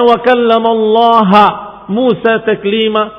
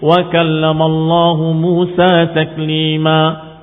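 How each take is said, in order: First: The word Allah ends with an 'a' vowel. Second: The word Allah ends with a 'u' vowel. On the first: Moses is the one who speaks to God. The speaker calls it wrong. "kalau dibaca seperti mereka Mu'tazilah" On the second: God is the one who speaks to Moses. The speaker calls it right. "yang asli dalam Al-Quran"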